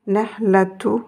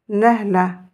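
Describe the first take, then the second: First: The word ends with the full ending -atu. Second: The word ends without the -tu ending. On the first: "Nous aurons un ou ici" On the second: "je ne suis pas obligée de prononcer le tout"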